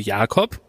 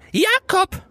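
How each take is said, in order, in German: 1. Der Name wird ruhig und ganz normal gerufen. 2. Der Name wird mit einer deutlichen, auffälligen Betonung geschrien. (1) "wie man es vielleicht machen würde" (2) "Mit dieser Betonung"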